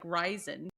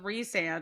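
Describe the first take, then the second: First: The name ends with a 'zen' sound. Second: The name ends with a 'sand' sound. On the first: This is how the name was guessed from reading. The speaker calls it wrong. "I thought it was like Ryzen" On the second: This is the character's real name. The speaker calls it right. "I didn't know his name was Resand"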